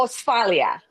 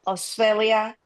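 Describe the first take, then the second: First: AUSTRALIA said as "os-FAH-lia", with an "ah"; Spanish-accented attempt. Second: AUSTRALIA echoed as "os-FAY-lia"; tentative pronunciation. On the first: Host attempting German with Spanish, AUSTRALIA as "os-FAH-lia". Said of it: "I will destroy German with my Spanish". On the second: Host repeating a suggested German name, AUSTRALIA as "os-FAY-lia". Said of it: "how to pronounce the name". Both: Real, not acted.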